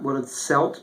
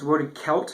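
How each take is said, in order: First: Celt begins with a soft S sound. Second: Celt begins with a hard K sound. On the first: The speaker calls it wrong. "When you pronounce it like a Celt, that's French influence" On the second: The speaker calls it right. "in Gaelic it's hard C, so it sounds like a K sound"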